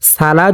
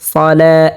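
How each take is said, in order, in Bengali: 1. প্রথম ব্যঞ্জনটি হালকা, পাতলা 's'। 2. প্রথম ব্যঞ্জনটি ভারী, মোটা 's'। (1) "সালা যদি পড়া হয় তাহলে সিন উচ্চারণ হয়ে যাবে, তাহলে শুদ্ধ হবে না" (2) "স মোটা করে পড়তে হবে এরকম ভাবে"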